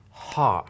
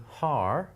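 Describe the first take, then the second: First: "ha" with a hard h, air clearly rushing out; low "ha", throat tightened, strong breath on the h; hard aspirated H. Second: "har" with a light English h; relaxed, easy h on "har". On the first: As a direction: push audible air through the h of "ha". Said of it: "definitely you hear the air coming out". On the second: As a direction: say "har" with only a little air on the h. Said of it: "just a light H like this". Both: Shown as a demonstration.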